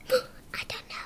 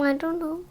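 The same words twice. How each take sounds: First: Breathless whisper after a gasp. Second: Said in the usual way. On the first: Real, not acted. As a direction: whisper it secretly. Same words repeated in whisper.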